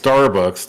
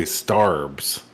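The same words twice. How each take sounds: First: Said in the usual way. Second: Starbucks cut down to a drawn-out "Starbs"; slangy "Starbs", stretched out; shortened Starbucks. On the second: Shown as a demonstration. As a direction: say "Starbs" slowly as one syllable. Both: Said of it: "shorten the word".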